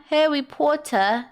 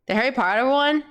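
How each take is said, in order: First: Drawn-out, put-on British accent; hammed-up British "Harry Potter"; mock British accent. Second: Said in the usual way. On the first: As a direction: playfully stretch it in a fake British accent. Mock British echo of the title.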